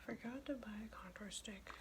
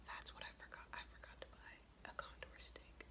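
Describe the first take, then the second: First: Softly voiced mutter to oneself; quiet, half-voiced self-reproach; half-voiced repeat. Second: Hushed, voiceless mutter to oneself; much softer, whispered self-reproach; whispered aside. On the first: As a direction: say it softly, no longer whispering. Repeats the aside more audibly. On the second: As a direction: whisper it under your breath. Aside on a forgotten item. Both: Real, not acted.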